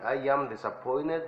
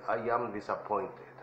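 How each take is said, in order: First: "disappointed" with the T said like an N, "disappoin-ned"; T sounding like N. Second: "disappointed" with a clear T, "disappoin-ted"; T pronounced. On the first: Teacher to Spanish-speaking students, modelling the American way, T said as N. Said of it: "Si lo pronuncian así". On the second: Teacher to students, contrasting the take with a clear T. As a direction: say "disappointed" with the T sounded out. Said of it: "es mejor que si dicen". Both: Shown as a demonstration.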